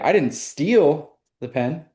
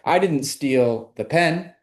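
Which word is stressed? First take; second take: steal; pen. First: The word 'steal' carries the main stress. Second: The word 'pen' carries the main stress. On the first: The pen was borrowed, not stolen. "sounds like I borrowed it" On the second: Something was stolen, but not the pen. "now it sounds like I stole something, but it wasn't the pen"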